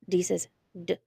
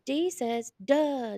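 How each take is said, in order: First: The d sound is short with no added vowel. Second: The d sound ends with an added uh vowel. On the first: The speaker calls it right. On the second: The speaker calls it wrong.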